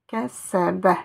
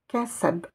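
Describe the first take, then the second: First: The word ends with a short vowel. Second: The word ends on a bare consonant.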